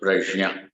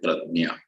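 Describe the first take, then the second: First: The middle cluster sounds like j-n-y. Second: The middle cluster sounds like d-n-y. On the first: This is the original form of the word. The speaker calls it right. "The correct pronunciation is not nya, gya, j, j plus the anunasik" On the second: This is how one regional group says it. The speaker calls it wrong. "Marathi people will call it pradnya"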